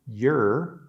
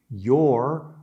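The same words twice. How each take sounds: First: The vowel rhymes with 'her'. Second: The vowel rhymes with 'or'. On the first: "There is also a weak pronunciation, your, which rhymes with her" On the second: "your rhymes with or. This is considered the strong or emphatic pronunciation"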